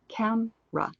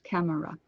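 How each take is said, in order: First: The word is said with only two syllables. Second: The word is said with three full syllables. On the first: "But we say camera. And we completely remove a piece of that word" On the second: "Three sounds"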